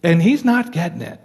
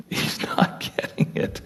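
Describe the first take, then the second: First: Said in the usual way. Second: Soft whispered repeat with a laugh. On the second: Shown as a demonstration. Preacher whispering to the congregation about Job, a rueful whisper. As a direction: breathe it out as a rueful aside.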